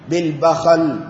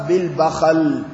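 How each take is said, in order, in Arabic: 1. تُنطق bakhal، بفتحتين. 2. تُنطق bakhal، بفتحتين.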